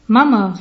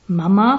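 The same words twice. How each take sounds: First: Louder call with falling tune; daughter's short, loud call. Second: „Mama?“ as a rising question; „Mama?“ with a questioning rise at the end. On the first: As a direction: call for mother loudly. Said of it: "rief Hannelore". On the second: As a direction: lift „Mama?“ upward in puzzlement. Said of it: "fragte die Mutterstimme". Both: A narrator's reading.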